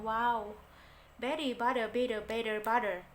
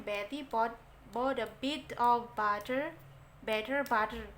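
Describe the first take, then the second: First: Louder American imitation, "Betty" as "beddy" and "butter" as "budder"; American flapped T. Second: Indonesian accent, every T in "Betty" and "butter" said crisp and hard; Indonesian-style English. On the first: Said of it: "Kalau mereka yang ngomong". (tiruan logat Amerika, T jadi D lembut) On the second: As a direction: read it the way an Indonesian speaker usually would, clear hard Ts. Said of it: "Kalau bahasa kita biasanya". (pengucapan Inggris logat Indonesia, T jelas) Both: Shown as a demonstration.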